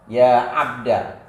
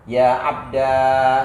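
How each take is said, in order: First: The final vowel is short. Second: The final vowel is long. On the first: "membuang alif yang jadi ganti ya mutakalim" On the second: "kita ganti ya mutakalim dengan alif"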